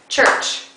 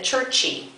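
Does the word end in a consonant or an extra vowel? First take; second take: consonant; extra vowel. First: It ends sharply on the ch sound. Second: An extra vowel is added after the ch. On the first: The speaker calls it right. "we can end it. It's one syllable" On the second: The speaker calls it wrong. "Try not to pronounce it churchy"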